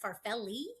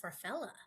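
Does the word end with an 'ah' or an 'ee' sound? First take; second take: ee; ah. First: The word ends with a long 'ee' vowel. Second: The word ends with an 'ah' vowel. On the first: The speaker calls it right. "I didn't know the e was long at the end" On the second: The speaker calls it wrong. "I always thought it was farfella"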